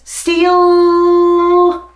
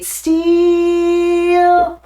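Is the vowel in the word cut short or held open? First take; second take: cut short; held open. First: The vowel is cut short onto the final l. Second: The long vowel is held open. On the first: The speaker calls it wrong. "He closes it so quickly" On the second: The speaker calls it right. "most singers would be steal"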